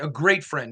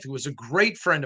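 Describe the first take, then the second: First: Great pressed with a falling tune; stress on great. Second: Said in the usual way. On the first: Shown as a demonstration. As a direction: lean on great, not good. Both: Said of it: "not a good friend".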